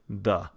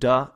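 First: The d sound is duller and softer. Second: The d sound is crisp and sharp. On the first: "it's the" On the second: "Instead of duh"

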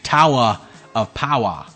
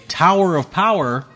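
First: The final r sounds are dropped as 'ah'. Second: The final r sounds are clearly pronounced.

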